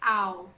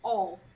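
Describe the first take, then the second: First: The vowel glides like in "cow". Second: The vowel sounds like in "all". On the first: The speaker calls it wrong. "Don't say ow" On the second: The speaker calls it right. "No, all, all"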